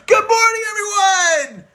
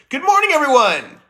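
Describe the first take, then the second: First: It is said with maximum energy. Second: It is said with moderate energy.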